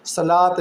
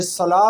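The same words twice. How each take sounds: First: सलात said with the final ते sounded, as the wrong way. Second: सला said with no final t, ending open; ending in h sound. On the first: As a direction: show सलात with a clear t at the end. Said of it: "इसी तरह से सला पढ़ेंगे". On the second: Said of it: "सलात नहीं पढ़ेंगे". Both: Shown as a demonstration.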